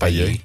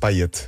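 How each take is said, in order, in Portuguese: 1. O som do t final é mudo. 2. O som do t final é pronunciado. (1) "e não Payet" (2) "acho que se diz mesmo Payet ... O T lê-se neste caso"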